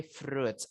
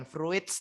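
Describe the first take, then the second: First: "fruits" said as froots; "fruits" in one syllable with long oo; correct pronunciation. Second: "fruits" said as fru-its; "fruits" read letter by letter as fru-its; mispronunciation demo. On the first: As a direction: keep the i silent in "fruits". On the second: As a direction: split "fruits" into two syllables, i sounded. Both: Shown as a demonstration. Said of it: "bacanya bukan fruits".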